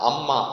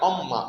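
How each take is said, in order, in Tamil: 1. முதல் உயிரெழுத்து திறந்த 'a' ஒலி. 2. முதல் உயிரெழுத்து வட்ட உதடுகளுடன் சொல்லப்படும் 'o' ஒலி. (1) "நம்ம அம்மா அப்படின்னு சொல்லிட்டு நம்ம தமிழில் சொல்கிறோம்" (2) "இது பார்த்தீங்கன்னா ஓ ஷேப்பில் சொல்லுவாங்க"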